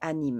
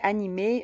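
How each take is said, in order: First: The word ends without a clear 'ay' vowel. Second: The word ends with a clear 'ay' vowel. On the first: The speaker calls it wrong. "je pense pas que ça se dit anime" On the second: The speaker calls it right. "je pense que ça se dit animé"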